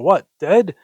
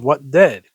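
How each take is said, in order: First: It is said as a rising question. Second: It is said as a forceful exclamation.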